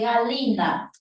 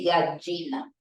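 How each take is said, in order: First: The double L is said as a palatal L. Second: The double L is said as a Y sound. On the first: The speaker is from the Andes. "colocan el símbolo fonológico que se le da a la doble L" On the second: The speaker is from Lima. "el limeño es yeísta y todo lo pronuncia con Y"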